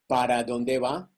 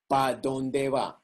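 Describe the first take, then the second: First: The first word is said fully as para. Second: The first word is shortened to pa. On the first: "here you say" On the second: "I say, pa donde va? ... I kill the ere and the a"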